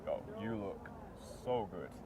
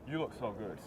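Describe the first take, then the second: First: It is said playfully, stretching the so. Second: It is said flatly, without warmth.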